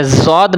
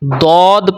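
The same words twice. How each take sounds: First: زود starting with a buzzing z; زود with z as in "zoo"; wrong Urdu z. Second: دود with a thick, stopped d at the start; دود with rounded vowel after emphatic d; Arabic heavy d. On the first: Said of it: "زود نہیں پڑھنا". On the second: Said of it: "یہ عربی ہے". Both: Shown as a demonstration.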